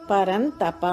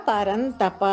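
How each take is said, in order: The two takes are said the same way.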